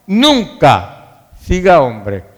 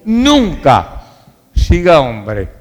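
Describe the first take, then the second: No difference in how they are said.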